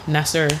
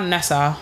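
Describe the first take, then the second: First: [name] with an r-coloured ending; American-style Nesser. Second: Nessa ending in an open "ah"; usual Nessa ending. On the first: Offering the host name options, American-style [name]. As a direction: finish [name] on an American r sound. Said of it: "went to America that people call me Nesser". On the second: Offering the host name options, usual Nessa ending. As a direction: say Nessa with an open final vowel. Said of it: "most people call me Nessa". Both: Shown as a demonstration.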